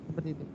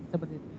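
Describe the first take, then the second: Both takes have the same delivery.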